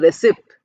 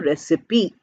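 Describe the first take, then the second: First: The last syllable sounds like 'pie'. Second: The last syllable sounds like 'pee'. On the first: The speaker calls it wrong. "we are not saying recipe" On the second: The speaker calls it right. "we are saying recipe"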